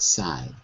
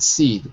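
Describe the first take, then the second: First: The vowel is an 'eye' diphthong. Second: The vowel is a long 'ee' sound. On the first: The speaker calls it right. "but side" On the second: The speaker calls it wrong. "Not seed"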